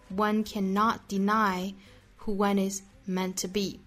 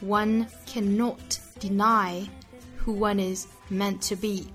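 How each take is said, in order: First: It is read in an American accent. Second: It is read in a British accent. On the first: "下面再用美音来读一下" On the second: "首先来用英音读一下"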